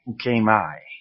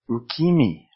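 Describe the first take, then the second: First: The final vowel sounds like eye. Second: The vowel after k sounds like ee. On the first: "if I did that with ukemi, we'd probably end up with something like ukemai" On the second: "which is not a word because E in Japanese, the E romaji version is a long E, like eh"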